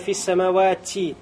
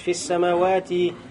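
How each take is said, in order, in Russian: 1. Звук t выпускается с придыхательным выдохом. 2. Звук t произносится без всякого придыхания. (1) "нельзя сказать" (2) "не будет шипения"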